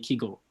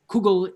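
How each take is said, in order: First: It is said with a southern Yiddish pronunciation. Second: It is said with a northern Yiddish pronunciation. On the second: "the pronunciation of this term, which is, um, shall we say, endemic to the northern regions of Europe"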